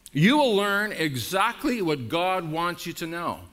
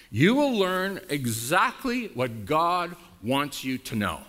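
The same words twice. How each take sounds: First: "will" punched, the line said with falling force; repeated with emphasis. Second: Slow, with "will" drawn out and lifted; stress on will. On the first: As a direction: hammer "will" home. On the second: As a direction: lean on "will", slowly. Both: Shown as a demonstration. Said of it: "Do you hear that?".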